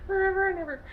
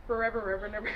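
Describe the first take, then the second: First: High, loud, gushing forever; giddy swoon. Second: Said in the usual way. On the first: Acted. Recapping the romance to viewers, a high loud gushing squeal. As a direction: squeal it like a lovestruck fan.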